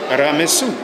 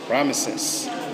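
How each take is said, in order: First: The name ends in an 'su' sound. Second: The name has three syllables ending in 'ses'. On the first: This follows the ancient written form. "It is better to pronounce it Ramesu" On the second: This is the usual European form. "the Europeans, they pronounce it Ramesses"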